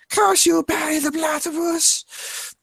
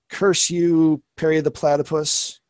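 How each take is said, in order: First: It is said in a put-on cartoon character voice. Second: It is said in his ordinary speaking voice.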